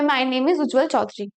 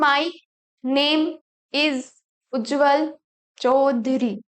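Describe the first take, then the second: First: It is read in one smooth flow. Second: It is read word by word, with pauses.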